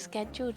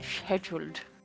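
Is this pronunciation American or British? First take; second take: American; British. First: It is said with an American pronunciation. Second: It is said with a British pronunciation. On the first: "scheduled is American" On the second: "and scheduled is British"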